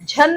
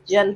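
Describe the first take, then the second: First: The first consonant is aspirated, with a breath. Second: The first consonant is unaspirated, without a breath. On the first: The speaker calls it wrong. "झन नहीं होता है" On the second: The speaker calls it right. "जन होता है"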